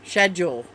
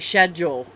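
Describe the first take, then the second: First: The word begins with an sh sound. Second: The word begins with an sh sound.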